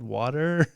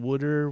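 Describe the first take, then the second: First: It is said without a Philadelphia accent. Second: It is said with a Philadelphia accent.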